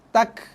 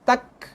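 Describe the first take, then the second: First: The ending lets out very little breath. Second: The ending lets out very little breath.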